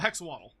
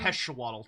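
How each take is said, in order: First: The x sound is fully and strongly pronounced. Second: The x sound is softened and less pronounced. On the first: "I like to overpronounce the X" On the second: "it should be heshawaddle technically"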